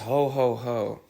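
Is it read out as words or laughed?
read out. It is read out flatly as words.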